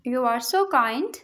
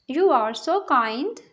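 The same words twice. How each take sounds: First: Said in the usual way. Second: Slow, clear repeat for learners; slow teacher repeat. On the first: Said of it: "teacher models sentence, then repeats". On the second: Shown as a demonstration. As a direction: draw each word out for the class. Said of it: "teacher repeats sentence slowly".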